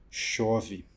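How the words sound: It is said with sadness.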